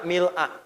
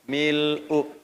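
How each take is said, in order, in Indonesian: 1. Kata ini diakhiri dengan vokal 'a'. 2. Kata ini diakhiri dengan vokal 'u'. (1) "Bisa dibaca juga a" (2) "tulisannya sama-sama begini. Mil'u"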